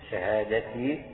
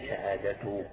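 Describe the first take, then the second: First: The word ends with an i vowel. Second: The word ends with a u vowel. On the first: The word continues the case of the phrase before it. "شهادتي تكون مكسورة" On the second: The word starts a new sentence. "على استئناف كأنك تبدأ جملة جديدة"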